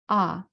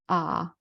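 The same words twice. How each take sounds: First: It is said in the fourth tone. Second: It is said in the third tone.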